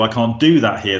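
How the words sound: The stress is on do.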